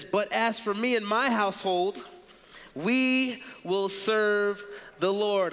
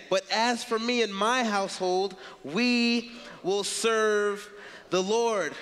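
First: Drawn-out, weighty proclamation; slow emphatic reading. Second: Very slow, stressing every word; slower, more emphatic reread. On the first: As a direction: let each word land slowly. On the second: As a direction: lean on each word, slower still. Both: Shown as a demonstration. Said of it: "I'm gonna read that again".

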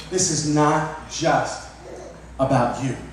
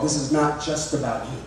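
First: Very slow, word by word; slow emphatic repeat. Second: Said in the usual way. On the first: Shown as a demonstration. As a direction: drag out "This is not just" with weight. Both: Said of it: "Let me repeat that again".

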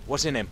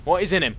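First: Said in the usual way. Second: "is" said in full, higher and louder; emphatic repeat. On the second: Real, not acted. Gamer searching a body, "is" said out emphatically. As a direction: lift and lean on "What is in him".

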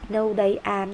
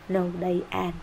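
First: No, they are, said slowly and evenly; slow model answer. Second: Said in the usual way. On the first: Shown as a demonstration. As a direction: read the answer out slowly for the class. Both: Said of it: "Đó là they".

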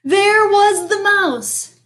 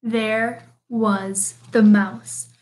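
First: High, drawn-out dramatic announcement; exasperated reveal. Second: Very slow, word-by-word storyteller delivery; resigned reveal. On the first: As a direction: raise the pitch and stretch the shock. Exasperating reveal, later repeated wearily. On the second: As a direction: space out each word with weary inevitability. Same reveal, now resigned, last time. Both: A narrator's reading.

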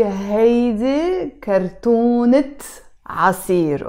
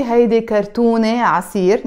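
First: كرتونة said slowly as kartunet, with a clear final t; sounded ta marbuta. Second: كرتونة ending on an open -e before عصير; wrong silent t. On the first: Teacher giving the correct noun phrase, t pronounced. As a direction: close كرتونة on a t before عصير. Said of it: "I have to pronounce the ت مربوطة". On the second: Teacher showing the wrong noun phrase, t left silent. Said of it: "I don't say". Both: Shown as a demonstration.

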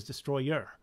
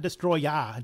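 First: "Destroyer" ending in an r-coloured "er"; correct pronunciation. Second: "Destroya" ending in a plain open "ah"; wrong pronunciation. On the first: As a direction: say "Destroyer" with a clear final "er". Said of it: "Is it Destroyer?". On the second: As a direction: say "Destroya" with a flat final "uh", no r. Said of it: "Destroya is a Godzilla, uh, kaiju". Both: Shown as a demonstration.

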